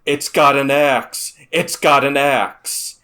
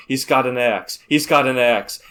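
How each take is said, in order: First: Loud, slow, frantic warning shout; panicked yell. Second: Raised panicked call, not full force; half-yelled warning into a walkie-talkie; a milder replay of the axe warning; retold yell. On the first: Retold or imitated. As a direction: scream the warning over the radio. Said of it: "I just yelled over the radio". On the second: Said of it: "I just yell".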